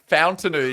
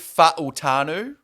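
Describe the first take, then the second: First: The name is said with an added n sound. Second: The name is said with no extra n sound. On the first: The speaker calls it wrong. "the N's not there, boys" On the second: The speaker calls it right. "It is Troy Fa'utanu"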